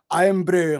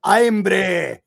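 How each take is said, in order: First: Irn-Bru with a light Scottish lilt. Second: Loud, hammed-up Scottish IRN-BRU; exaggerated Scottish. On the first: Showing how the word comes out, light Scottish accent. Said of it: "trying to sound Scottish". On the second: Showing you can't avoid it, loud exaggerated Scottish accent. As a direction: belt out IRN-BRU in broad mock Scottish. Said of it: "Like, you have to". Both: Shown as a demonstration.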